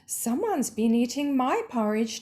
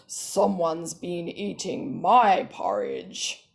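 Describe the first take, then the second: First: The voice is pitched in the middle. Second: The voice is pitched very deep. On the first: A mid-sized mother character is speaking. "Her voice is medium pitched" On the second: A large father character is speaking. "He's got a really deep pitched voice"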